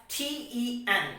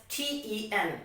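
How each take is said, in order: The two takes are said the same way.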